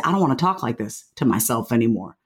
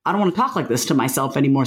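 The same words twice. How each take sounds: First: Tender vow to yourself; gentle self-talk. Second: Faster, plain-voiced second take; brisk resolute repeat; quick firm repeat. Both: Shown as a demonstration.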